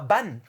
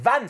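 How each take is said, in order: First: The name begins with a B sound. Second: The name begins with a V sound. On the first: The speaker calls it wrong. "c'est pas Ban" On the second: The speaker calls it right. "c'est Van"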